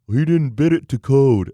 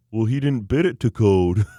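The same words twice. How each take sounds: First: Louder, higher dim-witted contractor voice; mocking the contractor. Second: Loud, dim-witted contractor voice; mocking the contractor. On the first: Repeating the contractor's excuse in disbelief, loud mocking voice. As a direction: repeat his dumb line, hammed up. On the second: Telling a friend, mocking the contractor's dumb excuse, loud put-on voice. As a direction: ham up the moron's line. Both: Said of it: "that's actually how he talks".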